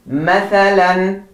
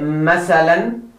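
First: The middle consonant is a 'th' sound. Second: The middle consonant is an 's' sound. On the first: The speaker calls it right. "It is tha. Tha. Not sa, but tha" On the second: The speaker calls it wrong. "Do not say masalan"

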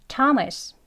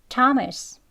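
Both takes have the same delivery.

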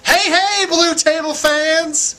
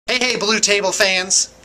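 First: The greeting sounds overdone and forced. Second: The greeting sounds flat and unenthusiastic.

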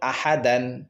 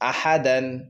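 Both takes have the same delivery.

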